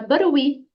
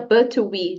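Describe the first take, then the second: First: The words run together, the T sounding like R. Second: Each word is said separately with a clear T. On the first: The speaker calls it right. "diga barui" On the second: The speaker calls it wrong. "não diga but we"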